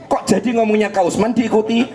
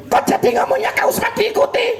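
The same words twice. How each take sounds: First: Said in the usual way. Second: High, fast puppet voice parroting with a laugh; puppet copying. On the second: Acted. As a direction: mimic him back as the cheeky puppet. (suara boneka tinggi dan cepat meniru)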